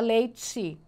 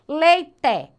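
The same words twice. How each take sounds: First: The final vowel sounds like I. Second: The final vowel sounds like E.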